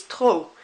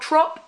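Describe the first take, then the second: First: TROP said as "troh", P left silent; "trop" ending openly on the O sound. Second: TROP said wrongly with a hard P at the end; "trop" ending on an audible P; trop with sounded P. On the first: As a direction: drop the final P in "trop". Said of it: "like that P isn't there". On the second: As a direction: pronounce the final P in "trop". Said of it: "You don't pronounce that P". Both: Shown as a demonstration.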